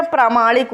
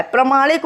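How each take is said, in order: First: प्रामाणिक with a long first aa: praa-maa-nik; long-vowel version. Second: प्रमाणिक with a short first a: pra-maa-nik; short-vowel version. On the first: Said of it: "या प्रामाणिक होता है". (प्रामाणिक में "प्रा" लंबा बोलें) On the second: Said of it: "प्रमाणिक होता है या". (प्रमाणिक में "प्र" छोटा बोलें) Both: Shown as a demonstration.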